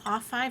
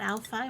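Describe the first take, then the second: First: The first word sounds like 'off'. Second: The first word sounds like 'Al'. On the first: The speaker calls it right. "I think that's how you say it, right?" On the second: The speaker calls it wrong. "not Al five"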